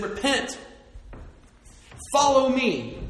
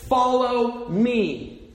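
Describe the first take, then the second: First: Jesus' call. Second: "Follow me" stretched slow and loud; slow emphatic call. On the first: Retold or imitated. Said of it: "and he said". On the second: Shown as a demonstration. Preacher stressing Jesus' call, slow and loud. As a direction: draw out "Follow me" like a summons. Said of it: "The call of the Gospels was always".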